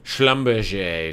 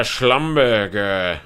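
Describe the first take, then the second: First: Schlumberger said the French way, "shlum-ber-zhay"; careful Schlumberger, "shlum-ber-zhay"; corrected pronunciation. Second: Schlumberger with a hard g, slow "shlum-ber-ger"; wrong pronunciation. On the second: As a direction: say Schlumberger the English way, ending in "-ger". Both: Shown as a demonstration.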